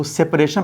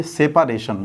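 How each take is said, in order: First: सेपरेशन said as sep-re-shun, dropping the middle a; सेपरेशन run together with no vowel after sep; common wrong pronunciation. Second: सेपरेशन said as sep-a-re-shun with a clear a after sep; सेपरेशन spelled out in sound, sep-a-re-shun; correct pronunciation. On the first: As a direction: clip सेपरेशन into three syllables, sep-re-shun. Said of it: "इसका उच्चारण आप लोग गलती करते हैं". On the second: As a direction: give सेपरेशन all four syllables, sep-a-re-shun. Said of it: "इसको पढ़िए". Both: Shown as a demonstration.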